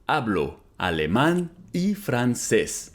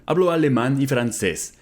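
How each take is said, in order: First: Slow, careful, clearly spaced words; slow model repeat. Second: Said in the usual way. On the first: Shown as a demonstration. Teacher repeating Spanish for students, slow and careful. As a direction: say it slowly for learners to copy. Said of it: "slow repeat of model". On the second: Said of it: "repeated model sentence".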